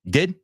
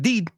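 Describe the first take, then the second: First: The vowel is a short lax i sound. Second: The vowel is a long ee sound. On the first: The speaker calls it right. "It's like a short eh" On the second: The speaker calls it wrong. "It's not did"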